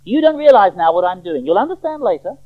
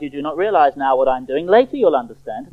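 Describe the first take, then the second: First: Raised, firm rebuke; loud, insistent correction; emphatic rebuke. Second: Said in the usual way. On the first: Acted. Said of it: "Jesus is just as emphatic in his rebuke".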